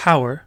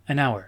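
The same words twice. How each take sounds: First: Hour dit avec le h prononcé; hour, h soufflé au début; hour avec h aspiré. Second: Hour sans h, comme our; an hour, h silencieux; an hour, h muet. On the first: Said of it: "on dit pas hour". (hour avec un h audible, comme house) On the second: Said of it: "c'est un H silencieux". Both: Shown as a demonstration.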